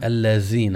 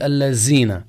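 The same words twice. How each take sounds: First: The word is said with a 'th' sound. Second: The word is said with a 'z' sound. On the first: The speaker calls it right. "فلابد أن يتلفظ بها كما هي مبنية" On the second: The speaker calls it wrong. "بعضهم يستبدل الزال بزاي"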